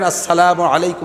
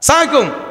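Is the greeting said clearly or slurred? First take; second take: clearly; slurred. First: Every syllable of the greeting is said clearly. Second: The greeting is clipped and slurred together. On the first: The speaker calls it right. "Clear বলেন, পরিষ্কার শুদ্ধ করে বলেন" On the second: The speaker calls it wrong. "টেডি সালাম"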